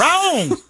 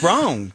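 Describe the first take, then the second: First: One high, drawn-out Southern "Wrong."; hammed-up Southern twang, much higher; Southern accent. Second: A lighter Southern twang, close to his own voice; Southern accent. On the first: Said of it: "slide into a Southern accent". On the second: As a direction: drop "Wrong." down, still in a light Southern twang. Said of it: "Let's keep that". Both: Shown as a demonstration.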